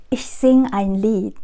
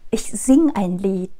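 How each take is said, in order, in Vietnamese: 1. Động từ bỏ âm e cuối. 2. Động từ bỏ âm e cuối.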